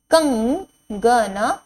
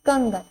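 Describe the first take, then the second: First: कंगन drawn out slowly, rising end; slow teacher drill; slow sounding out. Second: Said in the usual way. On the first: Shown as a demonstration. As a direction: stretch कंगन syllable by syllable. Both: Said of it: "word drill".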